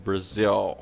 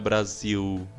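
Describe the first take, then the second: First: The final L is dark, from the throat. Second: The final L sounds like a U vowel. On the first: The speaker calls it right. "É um som mais gutural, ele vem do fundo da garganta" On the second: The speaker calls it wrong. "Não é igual ao nosso U de pastel"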